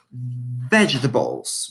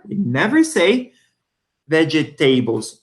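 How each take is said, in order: First: Vegetables said in three short beats, VEJ-tuh-bulls, slowly; correct pronunciation. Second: Vegetables said with a long "tay" in the middle, veh-juh-TAY-bles; wrong pronunciation. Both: Shown as a demonstration. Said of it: "Listen to the pronunciation".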